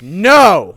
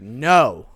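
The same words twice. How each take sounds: First: The no is said loudly and forcefully. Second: The no is said softly and meekly.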